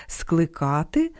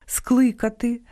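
First: Скликати with stress on the а, skly-KA-ty; stress on middle syllable. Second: Скликати with stress on the и, SKLY-ka-ty; stress on first syllable. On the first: Host shows imperfective verb, middle-syllable stress. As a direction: slowly stretch and lift KA in скликати. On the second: Host shows perfective verb, first-syllable stress. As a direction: punch the first vowel of Скликати, high. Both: Shown as a demonstration. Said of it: "Часом омографами стають і недалекі родичі".

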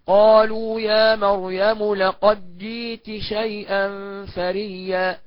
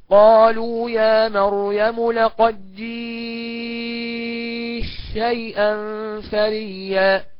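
First: "جئت شيئا" with the تاء said clearly before ش; clear pronunciation. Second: "جئت شيئا" with the تاء merged into ش, sung slowly; assimilated, chanted. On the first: Teacher demonstrating izhar, slow reading. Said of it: "الإظهار هكذا". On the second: Chanted, teacher demonstrating idgham in melodic recitation. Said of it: "والإدغام هكذا". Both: Shown as a demonstration.

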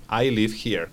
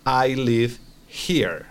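First: Said in the usual way. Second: Slow, careful model of I live here; slow model sentence. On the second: Shown as a demonstration. Teacher modelling for student, slow and careful. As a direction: spell it out slowly for the student. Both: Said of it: "se va a decir".

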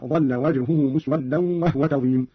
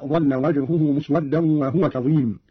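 First: وهو said "wahwa", no vowel on the h; silent-vowel ha. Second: Said in the usual way. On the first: Shown as a demonstration. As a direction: read وهو as "wah-wa", closing the first syllable on h. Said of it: "بإسكان الهاء هكذا". (إسكان الهاء في وهو) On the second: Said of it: "قرأ قالون بإسكان الهاء".

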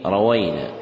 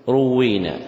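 First: روينا with fatha on ra and waw; rawayna pronunciation. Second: روينا with damma on ra, doubled waw; u first, long ee after doubled w in روينا; ruwwina pronunciation. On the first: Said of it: "بفتح الراء والواو". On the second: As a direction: say روينا as "ru-WWEE-na". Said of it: "بضم الراء وكسر الواو مشددة". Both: Shown as a demonstration.

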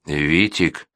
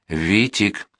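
First: Said in the usual way. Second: A mild tremble on the name; trembling voice. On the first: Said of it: "только и сказал он". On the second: A narrator's reading. Funya pleads with Vitik, repeating the name, mildly trembling. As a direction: repeat the name with a slight shake. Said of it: "повторил Фуня дрожащим голосом".

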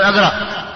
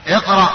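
First: اقرأ said with an a vowel at the start, aqraʔ; the mistake: start اقرأ on a; wrong aqraʔ. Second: اقرأ with an i vowel at the start, iqraʔ; correct iqraʔ. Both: Shown as a demonstration. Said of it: "لا تقول".

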